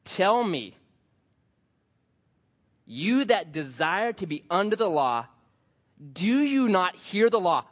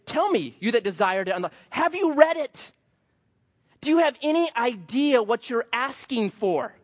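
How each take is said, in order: First: Said in the usual way. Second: High, incredulous exasperation; perplexed Paul. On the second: Retold or imitated. Paul baffled at the legalists, high and exasperated. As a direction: throw the verse back at them in disbelief. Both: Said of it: "Paul's perplexed".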